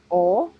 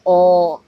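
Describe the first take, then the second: First: Short pure ओ, clipped and tight; a quick pure ओ with no glide; plain short vowel ओ. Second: ओ held long and loud; long open vowel ओ, slow and firm; long stressed o. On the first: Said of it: "pure ओ की आवाज़". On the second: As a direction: stretch ओ out and lean on it. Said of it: "लंबी आवाज़ है, वहाँ पर हमें stress देना है". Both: Shown as a demonstration.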